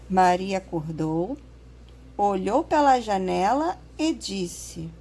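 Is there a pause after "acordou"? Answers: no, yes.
yes. There is a pause after acordou. The speaker calls it right. "Viu como é que ficou? A gente entendeu melhor"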